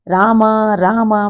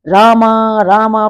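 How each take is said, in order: First: It is said softly and quietly. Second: It is said somewhat loudly.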